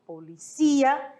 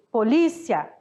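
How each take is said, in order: First: Policia stressed on CÍ, po-li-CÍ-a, slowly; Spanish policía. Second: Polícia stressed on LÍ, po-LÍ-cia; Portuguese polícia. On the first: Teacher contrasting with Spanish, policia slow with stress on CÍ. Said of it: "em espanhol". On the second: Teacher giving the Portuguese word, polícia stressed on LÍ. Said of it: "Em português". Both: Shown as a demonstration.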